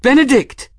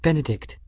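First: Very high, loud cry of the name; alarmed cry. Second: High, hushed urgency on the name; quietly urgent. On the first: Bridget crying out as Benedict collapses, alarmed shout. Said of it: "Bridget cried". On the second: Bridget urging grieving Benedict to leave, quietly urgent. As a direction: urge him gently but pressingly. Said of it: "quietly urgent". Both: A narrator's reading.

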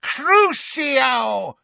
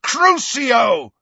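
First: High, drawn-out screamed curse; villainess's high shriek of a spell. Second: Loud, high shouted curse; full-force furious spell cry; bellow. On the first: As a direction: scream the spell, stretching the vowels. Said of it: "when she screamed". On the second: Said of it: "and bellowed". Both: A narrator's reading.

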